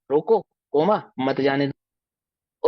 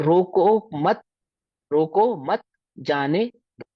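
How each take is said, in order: First: रोको set apart, then मत जाने दो slowly as one phrase; slow demo, comma placed after रोको; pause after रोको. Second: रोको मत slow and joined, then a break before जाने दो; slow demo, comma placed after मत; pause after मत. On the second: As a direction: draw out रोको मत as one phrase. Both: Shown as a demonstration. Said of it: "coma अगर आगे पीछे कर दें".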